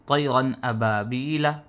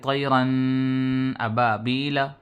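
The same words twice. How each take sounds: First: The n is clear and quick, without nasal hum. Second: The n is held through the nose, nasalized. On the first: The speaker calls it right. "ज़ाहिर करके बिला गुन्ने के जल्दी से पढ़ देंगे" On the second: The speaker calls it wrong. "ऐसे नहीं पढ़ने के ... नाक में नहीं पढ़ेंगे"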